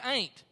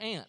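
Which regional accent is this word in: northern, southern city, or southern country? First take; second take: southern country; southern city. First: It is said in a southern country accent. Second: It is said in a southern city accent. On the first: "If you're from the country in the South, we say ain't" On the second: "in the South, we say aunt"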